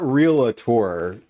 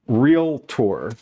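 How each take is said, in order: First: An extra vowel is added before the last syllable. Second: No extra vowel is added before the last syllable. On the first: The speaker calls it wrong. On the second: The speaker calls it right.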